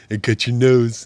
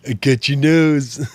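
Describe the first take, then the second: First: Higher, louder goofy stuffed-nose voice; silly nasal voice. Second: Even higher, louder and slower nasal goof; silly nasal voice. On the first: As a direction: play a pinched-nose joker. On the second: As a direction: stretch the stuffed-nose joke bigger. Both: Pretend. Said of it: "somebody's pinching my nose".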